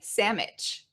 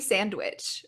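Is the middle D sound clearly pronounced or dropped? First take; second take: dropped; clear. First: The middle D sound is dropped. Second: The middle D sound is clearly pronounced. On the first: A casual, jokey shortened form. "if I wanted to shorten it, I would just say in kind of a funny way" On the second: The usual everyday form. "usually sandwich with a stronger D"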